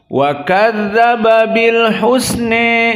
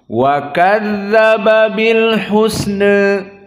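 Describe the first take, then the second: First: The final vowel leans strongly toward e. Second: The final vowel leans slightly toward e. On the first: "membaca dengan al-imalah al-kubra" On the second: "membaca dengan taklil"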